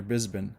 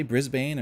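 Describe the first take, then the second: First: Brisbane with a reduced "bin" ending; alternative pronunciation. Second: Brisbane with a full "bane" ending; alternative pronunciation. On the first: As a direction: swallow the end of Brisbane to "Brisbn". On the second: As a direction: say Brisbane as spelt, rhyming with "lane". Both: Shown as a demonstration. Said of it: "Did you say Brisbane or Brisbane?".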